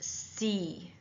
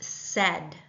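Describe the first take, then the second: First: The letter is pronounced zee, as in American English. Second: The letter is pronounced zed, as in British English. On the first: "In American English, it's pronounced C" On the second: "Canadian English or British English, it's pronounced said"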